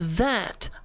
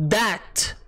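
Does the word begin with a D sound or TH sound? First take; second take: TH sound; D sound. First: The word begins with a soft th sound. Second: The word begins with a hard d sound. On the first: The speaker calls it right. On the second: The speaker calls it wrong.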